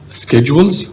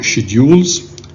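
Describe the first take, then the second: First: It is said with a non-British pronunciation. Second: It is said with a British pronunciation.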